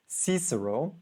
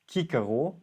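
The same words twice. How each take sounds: First: The name begins with a soft s sound. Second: The name begins with a hard k sound. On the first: "I hope I say it in the right way when English pronounces it" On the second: "which according to my Latin teacher is the right pronunciation"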